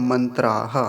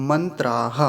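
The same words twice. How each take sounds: Both takes have the same delivery.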